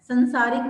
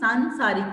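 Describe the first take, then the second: First: The first vowel is short. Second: The first vowel is long. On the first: The speaker calls it wrong. "संसारिक नहीं" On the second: The speaker calls it right. "सांसारिक होता है"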